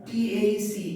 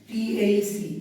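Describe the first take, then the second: No difference in how they are said.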